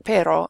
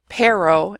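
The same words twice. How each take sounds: First: "pero" as PEH-ro, tongue tapping once; tapped Spanish R. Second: "pero" as PAIR-oh; unrolled English R. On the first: Teacher contrasting with the accent, "pero" with Spanish tap. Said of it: "instead of pero". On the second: Teacher showing an understandable accent, "pero" with English R. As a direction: use a plain American R in "pero". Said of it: "If you say pero". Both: Shown as a demonstration.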